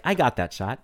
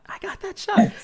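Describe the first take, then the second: First: Said in the usual way. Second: "I got that shot" jumps way higher on the repeat; hyped-up boast. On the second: Retold or imitated. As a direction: pump yourself up on the second take. Confident quote repeated twice.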